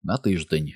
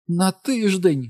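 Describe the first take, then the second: First: Said in the usual way. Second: High, drawn-out theatrical wail; aghast, high-pitched and slow; shrieked disbelief. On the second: A narrator's reading. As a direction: cry out like a bad-opera diva. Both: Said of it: "скрикнула вона".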